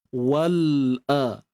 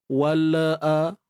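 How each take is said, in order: First: The l closes cleanly before the next vowel. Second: An extra vowel is inserted after the l. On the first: The speaker calls it right. "Dah selesai lam baru pindah makhraj hamzah" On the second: The speaker calls it wrong. "jangan adakan bunyi wala a"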